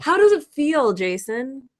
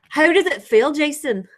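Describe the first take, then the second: First: It is said in the speaker's plain accent. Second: It is said in a put-on Scottish accent.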